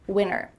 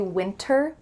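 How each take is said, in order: First: The T in the middle is dropped. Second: The T in the middle is clearly pronounced. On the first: "when native speakers speak fast" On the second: "with a clear T if they're enunciating clearly"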